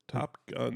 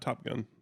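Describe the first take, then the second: First: The two words are clearly separated. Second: The two words are run together quickly. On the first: The speaker calls it right. "Two words" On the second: The speaker calls it wrong. "Not, not Top Gun"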